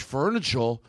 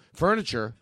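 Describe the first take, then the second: First: "furniture" with a Boston final vowel, its R lost; mock Kennedy Boston accent. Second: Said in the usual way. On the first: Comic quoting the president's "furniture" in a mock Boston accent. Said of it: "John F. Kennedy ... He was like".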